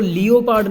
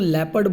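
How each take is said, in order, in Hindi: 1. इसे lee-oh-pard की तरह बोला जाता है, तीन अक्षर। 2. इसे lep-ard की तरह बोला जाता है, दो अक्षर। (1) "इसको लियोपार्ड नहीं बोलना है" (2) "इसको लेपर्ड बोलना है"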